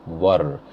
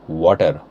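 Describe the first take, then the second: First: Low "water" with a soft t; American pronunciation. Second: Low "water" with a hard t; Indian pronunciation. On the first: Teacher contrasting accents, American "water". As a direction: ease the t in "water", American style. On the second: Teacher contrasting accents, Indian "water". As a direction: strike the t in "water", Indian style. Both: Shown as a demonstration. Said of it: "see how it changes".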